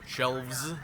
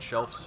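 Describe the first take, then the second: First: The word ends with a voiced v sound. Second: The word ends with a voiceless f sound. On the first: The speaker calls it right. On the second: The speaker calls it wrong. "not shelves. They're not like elves, E L F S"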